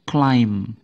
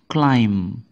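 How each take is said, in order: No difference in how they are said.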